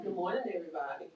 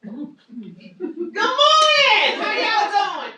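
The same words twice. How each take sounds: First: Soft greeting. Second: Very high, loud, booming "Good morning! How y'all doing?"; too loud greeting. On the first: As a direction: greet them gently. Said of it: "you wanna use that thing". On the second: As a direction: blast the greeting as if they can't hear. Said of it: "I have a very loud voice". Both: Shown as a demonstration.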